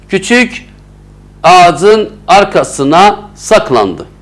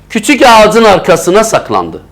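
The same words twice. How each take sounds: First: There is a short pause after küçük. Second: It is read in one go without pause.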